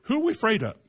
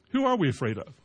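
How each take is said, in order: First: "we" lifted high and stressed, higher voice. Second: "are" stressed at normal pitch, falling end. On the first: Preacher challenging the congregation, "we" stressed high. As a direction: lean hard on "we" in "Who are we afraid of?". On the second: Preacher repeating the question to the congregation, "are" stressed. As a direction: settle the weight on "are" in "Who are we afraid of?". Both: Shown as a demonstration.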